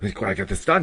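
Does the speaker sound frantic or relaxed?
frantic. It sounds frantic and rushed.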